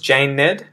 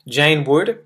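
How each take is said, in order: First: Would is reduced to a short ed sound. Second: The word would is said in full.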